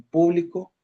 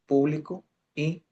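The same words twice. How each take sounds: First: "público" with the stress on PÚ, first syllable hit high. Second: "público" said pu-BLI-co, weight on the middle syllable; stress on middle syllable. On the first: Teacher contrasting accents, stressing PÚ in "público". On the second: Teacher contrasting accents, stressing BLI in "publico". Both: Shown as a demonstration. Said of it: "distinguir el significado".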